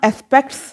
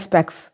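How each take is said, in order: First: The t sound is clearly pronounced. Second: The t sound is left out.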